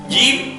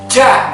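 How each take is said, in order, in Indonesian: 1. Dibuat dengan lidah bagian tengah diangkat. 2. Dibuat dengan ujung lidah, terlalu ke depan. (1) "lidah bagian tengah diangkat kena langit-langit mulut yang atas" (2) "bukan di ujung"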